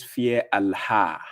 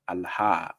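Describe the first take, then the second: First: "Allah" read slowly with a drawn-out, breathy h: al-HAA; "Allah" drawled as the commenter spelt it; mock misspelling. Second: "Allah" said short and soft with a light h, falling; quiet corrective "Allah"; correct pronunciation. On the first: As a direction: sound out the commenter's misspelt "Allah" with a long final a. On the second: Shown as a demonstration. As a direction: show how "Allah" should sound, quietly. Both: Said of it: "you couldn't even spell the Allah well".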